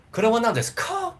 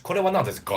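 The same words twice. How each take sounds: First: "Kore wa nan desu ka?" pitched much higher, with a deliberately stressed "ka" that rises; overdone question. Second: "Kore wa nan desu ka?" with "ka" relaxed and falling, halfway toward "ga"; natural in-between ka. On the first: Teacher shows learners the forced way not to ask. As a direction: exaggerate the question, pushing hard on "ka". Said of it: "You don't want to do that". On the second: Teacher models the comfortable, natural way to ask. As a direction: say it easily, letting the "ka" fall. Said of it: "a little bit in between". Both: Shown as a demonstration.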